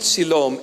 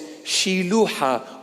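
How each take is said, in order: First: The name is said with English pronunciation. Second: The name is said with Aramaic pronunciation. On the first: The speaker calls it wrong. "The English pronunciation is pretty close" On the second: The speaker calls it right.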